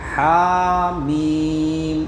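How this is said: Each letter name is drawn out and kept separate. The speaker calls it right. "हा और मीम को अलग खींचना है"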